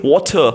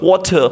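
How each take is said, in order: First: It is said in a British accent. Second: The same.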